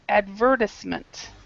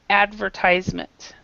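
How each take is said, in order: First: It is said with a British pronunciation. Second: It is said with an American pronunciation. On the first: "in British English, they say advertisement" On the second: "in American English, we say advertisement"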